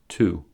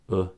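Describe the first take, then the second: First: The word is said with its full vowel. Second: The word is said with a reduced weak vowel.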